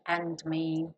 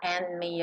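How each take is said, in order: First: The d at the end of 'and' is pronounced. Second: The d at the end of 'and' is dropped. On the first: "ao invés de and me" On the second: "de tirar o dedo and e falar and me"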